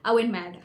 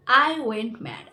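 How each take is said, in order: First: Said in the usual way. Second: "I went mad" slow and louder, each word weighted; emphatic repeat. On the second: Real, not acted. Storyteller repeats her reaction for effect, "I went mad" slow and emphatic. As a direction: stretch out "I went mad", hitting it loudly.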